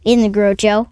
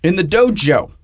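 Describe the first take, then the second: First: Grojo said with a gr at the start, like grow-jo; mishearing dojo as Grojo; mispronounced. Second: Dojo said with a plain d, doe-joe; corrected pronunciation. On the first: Real, not acted. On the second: Shown as a demonstration. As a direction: dojo corrected from Grojo with a clear d.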